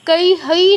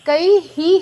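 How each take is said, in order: First: The final syllable is pronounced 'hoi'. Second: The final syllable is pronounced 'hi'. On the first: The speaker calls it wrong. "না হয়ে" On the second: The speaker calls it right. "কই হি হবে"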